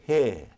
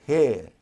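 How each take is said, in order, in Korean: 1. 끝의 R은 발음하지 않아요. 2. 끝의 R은 발음하지 않아요.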